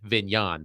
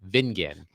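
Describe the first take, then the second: First: The name is said to rhyme with mignon. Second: The name is said without the mignon-like ending. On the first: The speaker calls it wrong. "sprucing up my last name and saying it's Vignon" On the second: The speaker calls it right. "but it's actually Vingan"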